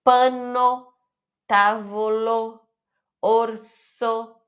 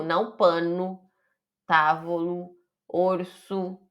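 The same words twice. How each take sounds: First: "Pano", "tavolo", "orso" each ending on a full, open O; teacher models the final O clearly. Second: "pano", "tavolo", "orso" ending in a dull, closed U sound; wrong final U. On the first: Teacher shows students the Italian final O, said crisply. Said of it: "falar o O no final". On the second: Teacher demonstrates the common mistake, final O closed to U. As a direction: mimic the Brazilian habit of closing O into U. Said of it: "Não som de U". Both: Shown as a demonstration.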